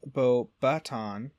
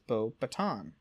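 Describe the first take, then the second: First: Beauxbaton said slowly as "boh-BAT-ahn"; slow, drawn-out Beauxbaton with an open A in the middle; incorrect pronunciation. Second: Beauxbaton said "boh-buh-TAHN"; correct pronunciation. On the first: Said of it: "is incorrectly pronounced by Dumbledore". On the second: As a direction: say Beauxbaton the French way, with a light unstressed middle and silent final S. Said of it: "Pottermore confirms Fry's pronunci". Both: Shown as a demonstration.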